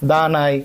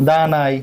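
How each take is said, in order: Both takes have the same delivery.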